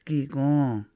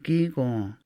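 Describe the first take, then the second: Both takes have the same delivery.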